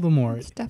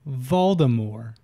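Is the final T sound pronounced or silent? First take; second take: pronounced; silent. First: The final T is clearly pronounced. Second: The final T is left silent. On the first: The speaker calls it wrong. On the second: The speaker calls it right.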